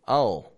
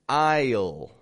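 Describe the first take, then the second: First: A quick clipped word with the vowel dropped. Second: One contracted word with a stretched vowel. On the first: The speaker calls it right. "drop the vowel from the word" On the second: The speaker calls it wrong. "or instead of saying"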